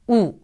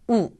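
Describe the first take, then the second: The two takes are said the same way.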